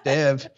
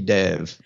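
First: The name is said in a Midwestern American accent. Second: The name is said in a Texan accent. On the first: "I'm an American from the Midwest" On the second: "now that I'm in Texas, it should be"

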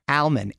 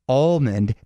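First: The word is said without an L sound. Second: The word is said with an L sound. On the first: The speaker calls it right. "I think it's supposed to be pronounced almond" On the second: The speaker calls it wrong. "if it was supposed to be almond, they'd put two L's in it, sort of like all day"

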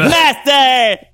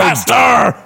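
First: It is said in a SpongeBob impression. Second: It is said without a SpongeBob impression.

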